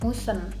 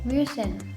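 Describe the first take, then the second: First: The first vowel is a plain back oo. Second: The first vowel is a rounded front ü. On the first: The speaker calls it wrong. "Jadi nggak musen" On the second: The speaker calls it right. "Contohnya dürfen"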